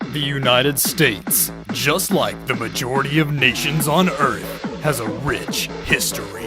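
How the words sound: It is said in a deep movie-trailer voice.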